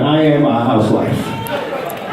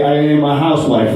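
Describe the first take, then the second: First: "I am a housewife" drawn out slowly and pitched low; slow, weighty declaration on HOUSEWIFE; emphatic repeat. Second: Said in the usual way. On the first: Shown as a demonstration. Comic confessing to the crowd, slow emphatic repeat of "I am a housewife".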